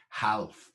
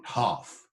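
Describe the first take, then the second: First: "half" with a clear L and a flat A; L sounded in half. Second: Said in the usual way. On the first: Shown as a demonstration. Teacher showing the old way to say "half". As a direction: say "half" as Chaucer did, L and all. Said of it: "the L pronounced". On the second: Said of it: "not half".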